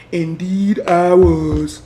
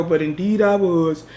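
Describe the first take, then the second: First: Indeed I was, slow, each word weighted; slow emphatic. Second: Said in the usual way. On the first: Real, not acted. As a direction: admit it slowly and firmly.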